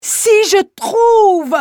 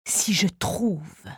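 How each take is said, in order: First: Much higher, much louder, slow ecstatic cry; inspired outburst. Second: Lower, softer, slow half-whispered musing; low first tone. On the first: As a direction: peak of rapture, the inspired man. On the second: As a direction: say it low and slow, almost to yourself. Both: Acted. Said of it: "sur trois tons différents".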